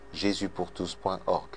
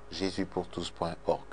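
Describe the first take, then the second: No difference in how they are said.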